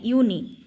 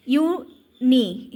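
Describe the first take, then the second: First: Said in the usual way. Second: Drawn-out syllable. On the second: Shown as a demonstration. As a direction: stretch uni out very slowly as a teaching demo. (ইউনি খুব টেনে ধীরে বলা) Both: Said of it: "ইউনি বানানটা দেখো".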